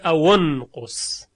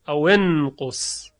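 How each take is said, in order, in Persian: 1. حرف صدادار واسط بعد از 'aw' 'u' است. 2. حرف صدادار واسط بعد از 'aw' 'i' است. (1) "در روایت قالون میبینیم که اینجا به جای کسره ضمه میگیره" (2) "در بیشتر موارد کسره میدن"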